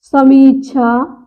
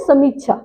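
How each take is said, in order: First: समीक्षा slow, with a long mee; शुद्ध उच्चारण. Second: समीक्षा quick, with a short mi; आम गलत उच्चारण. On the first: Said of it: "बड़ी की मात्रा". (समीक्षा में "मी" खींचकर) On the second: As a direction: clip the middle of समीक्षा. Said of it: "समीक्षा बोलते हैं ना". (समीक्षा में "मि" छोटा) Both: Shown as a demonstration.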